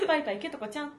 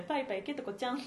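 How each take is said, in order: First: パイパイケトコちゃん with a bouncy lift on パ and a rising end; sing-song name. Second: Said in the usual way. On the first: Shown as a demonstration. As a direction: sing パイパイケトコちゃん like a note marked with a music symbol, end going up. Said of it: "音符ついてる。こうやって読むしかないんだよ". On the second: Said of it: "こうやって読むしかないんだよ".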